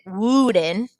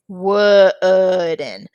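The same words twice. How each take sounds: First: WOODEN with a long oo as in moon; wrong pronunciation. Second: WOODEN with short uh vowel, stretched very slowly; slow, split WOODEN with the vowel of good; correct pronunciation. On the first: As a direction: say wooden as "woo-den". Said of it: "We don't pronounce it". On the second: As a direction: draw out wooden as "wuh-uhd-en". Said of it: "We don't pronounce it wooden". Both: Shown as a demonstration.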